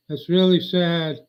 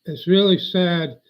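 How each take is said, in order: Both takes have the same delivery.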